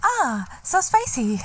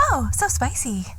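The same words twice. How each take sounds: First: High, slow breathy food reviewer; ASMR mukbang voice. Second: Put-on TikTok girl voice. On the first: Pretend. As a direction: coo over spicy food. Mock TikTok ASMR girls. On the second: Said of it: "you can see the girls go".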